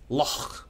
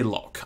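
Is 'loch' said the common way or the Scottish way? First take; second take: Scottish; common. First: The word is said the Scottish way. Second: The word is said the common, non-Scottish way. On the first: The speaker calls it right. "in Scotland, it's pronounced loch" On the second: The speaker calls it wrong. "Most of us say loch"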